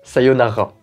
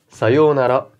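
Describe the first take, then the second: First: The middle 'o' vowel is kept short. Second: The middle 'o' vowel is held long. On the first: The speaker calls it wrong. "et non pas" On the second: The speaker calls it right. "comme si on prolongeait la syllabe d'avant"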